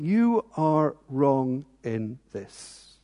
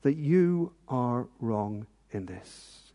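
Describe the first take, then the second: First: Very slow, softer, each word weighed; slow solemn accusation. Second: Very slow, softer, grave; quiet emphatic repeat. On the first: Pretend. God points at you and says it, slow and grave. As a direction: point the finger slowly and gravely. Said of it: "God is putting his finger on you and going". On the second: Real, not acted. Preacher repeats God's verdict to the congregation, slow and soft. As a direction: press the point home slowly.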